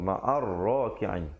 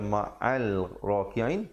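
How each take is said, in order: First: The l blends into a doubled r. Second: A clear l is heard before r. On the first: The speaker calls it right. "alif lam syamsiah, lamnya tidak dibunyikan" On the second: The speaker calls it wrong. "jangan baca ma'al raki'in"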